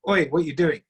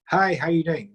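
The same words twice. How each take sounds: First: A mild, rough call of oi, half demanding; rough challenge. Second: Friendly greeting. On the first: Showing a listener a blunt, confronting greeting. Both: Shown as a demonstration. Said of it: "same three different ways".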